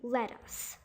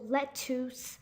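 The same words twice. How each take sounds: First: The second vowel is an uh sound. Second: The second vowel is an oo sound. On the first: The speaker calls it right. "you're supposed to pronounce it as an uh pronunciation" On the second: The speaker calls it wrong. "mistake this U as a double O pronunciation"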